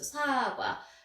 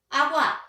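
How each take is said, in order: First: It starts with an s sound: sagwa. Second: The first consonant is dropped: agwa. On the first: The speaker calls it right. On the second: The speaker calls it wrong. "기억을 생략하는 거예요"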